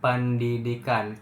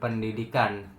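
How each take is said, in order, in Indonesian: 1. Bibir menutup rapat pada p. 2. Bibir menutup rapat pada p.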